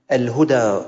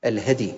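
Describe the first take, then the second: First: "الهدى" with u after ha, open a on dal; rounded short u on the ha of "الهدى", long final a; damma on ha. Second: "الهدي" with an open a after ha, silent dal; short a on the ha of "الهدي", no vowel on dal; fatha on ha. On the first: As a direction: say "الهدى" as al-HU-daa. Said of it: "بضم الهاء". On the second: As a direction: say "الهدي" as al-HAD-y. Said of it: "الأول بفتح الهاء وإسكان الدال". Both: Shown as a demonstration.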